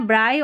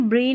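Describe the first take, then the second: First: ब्राई with an eye sound, like bright; ब्राई rhymes with eye; correct brai. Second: ब्री with an ee sound, the wrong way; ब्री said bree, as a mistake. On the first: Teacher giving the right ब्राई, eye sound. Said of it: "B आर आई को ब्राई पढ़ना है". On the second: Teacher showing the wrong form ब्री, ee sound. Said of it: "ब्री नहीं पढ़ना है". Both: Shown as a demonstration.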